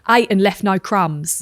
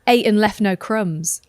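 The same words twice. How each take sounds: First: It is said in a South London accent. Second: It is said without a South London accent.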